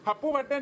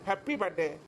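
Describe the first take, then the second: First: The first word ends in an 'oo' sound. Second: The first word ends in an 'ee' sound. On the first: The speaker calls it wrong. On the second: The speaker calls it right.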